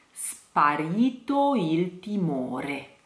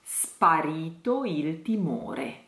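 First: "Sparito il timore" slow, R's flipped. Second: "Sparito il timore" slow and soft, R's tapped; flipped R's. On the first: Teacher slowly models flipped R's. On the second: Teacher repeats "Sparito il timore" with flipped R's. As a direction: flip each R in "Sparito il timore". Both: Shown as a demonstration. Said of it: "two flipped R's".

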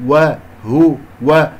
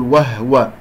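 First: "وهو" slow, wa-hu-wa in separate syllables; correct rounded ha. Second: "وهو" squeezed to wah-wa; wrong still ha. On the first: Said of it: "الهاء مضمومة نضم الشفتين". (ضم هاء "وهو") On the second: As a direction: drop the u after h in "وهو", as a mistake. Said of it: "لا أقول وهو". (تسكين خاطئ لهاء "وهو") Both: Shown as a demonstration.

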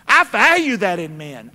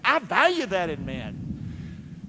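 First: Said in the usual way. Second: Much softer and slower, leaning on value; hushed earnest restatement; soft sincere repeat. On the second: Shown as a demonstration. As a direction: drop it down and mean it.

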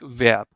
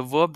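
First: "verb" said the German way, with an open e; German pronunciation of Verb. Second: Said in the usual way. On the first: Shown as a demonstration. Teacher shows beginners the German word, "verb" pronounced the German way. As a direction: say "verb" as German Verb, roughly "vairb". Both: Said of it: "but you pronounce it like verb".

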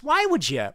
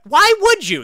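First: High, incredulous question; baffled question. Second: Very high, loud disbelief; incredulous high-pitched yell; exasperated outcry. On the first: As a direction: ask it in pained disbelief. Baffled reaction to a game. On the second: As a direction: cry it out, utterly baffled. Repeats baffled question, escalating. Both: Real, not acted.

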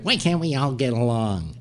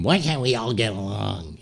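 First: Put-on pleading voice; Leno. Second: Put-on voice parroting someone's plea; mocking. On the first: Leno to Letterman in the commercial, mimicked pleading. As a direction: imitate a peacemaker's plea in an odd voice. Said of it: "Leno's saying things like". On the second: Letterman mocking Leno in the commercial, mocking mimicry. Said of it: "like, mocking him".

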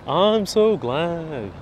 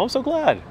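First: Very slow, stretched-out thanks; drawn out. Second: High, bright squeal of delight; a high little happy squeal. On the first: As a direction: let each word linger. Repeats the same thanks slowly. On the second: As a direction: squeak it out happily. Delighted reply to viewer praise. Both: Real, not acted.

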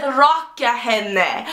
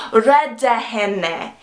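First: "Raka henne" slow, with an open ah in the first syllable; mistaken line. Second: "Rädda henne" slow, with an e in the first syllable; correct line. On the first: Friends quoting her mistake, "Raka henne" slow with an ah vowel. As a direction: quote the slip slowly: "Raka henne", ah as in rock. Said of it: "You said". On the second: Friends correcting her line, "Rädda henne" slow with an e vowel. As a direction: spell out "Rädda henne" slowly, e as in red. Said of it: "You were supposed to say". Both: Retold or imitated.

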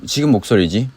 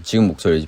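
First: Said in the usual way. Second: Deep voice. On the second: Shown as a demonstration. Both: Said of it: "변성기 와서 한층 더 낮-, 낮은 목소리로".

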